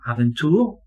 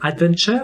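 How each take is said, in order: First: The word is said without a D sound. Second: The word is said with a D sound. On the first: This is the older form before the spelling change. "no D sound at all" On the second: This is the form after the spelling change. "with a D sound"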